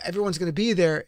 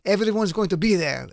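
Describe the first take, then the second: First: It is spoken in the speaker's plain accent. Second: It is spoken in a put-on foreign accent. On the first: "with or without an accent" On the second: "with or without an accent"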